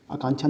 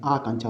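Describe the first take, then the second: First: आकांक्षा with short first a; wrong short vowel. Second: आकांक्षा with long opening aa; correct long vowel. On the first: Teacher showing the misspelt word, short first vowel. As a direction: open आकांक्षा on a brief uh. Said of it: "नहीं होता है". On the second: Teacher correcting the word, long first vowel. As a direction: open आकांक्षा on a full aa. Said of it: "होता है". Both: Shown as a demonstration.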